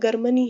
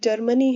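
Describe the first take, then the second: First: The word begins with a hard G sound. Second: The word begins with a soft J sound. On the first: The speaker calls it wrong. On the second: The speaker calls it right.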